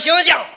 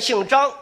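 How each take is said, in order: First: It is said in a Shandong accent. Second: It is said in standard Mandarin pronunciation.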